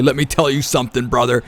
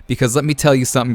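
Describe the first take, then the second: First: A quick, light mock Hulk Hogan catchphrase; Hulk Hogan line. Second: Said in the usual way. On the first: [name] quotes Hulk Hogan about Prioxis, a light mock wrestler voice. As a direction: toss off a hint of the wrestler's bravado. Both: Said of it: "as Hulk Hogan would say".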